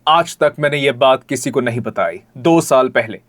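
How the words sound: It is said in a high, stagey pitch.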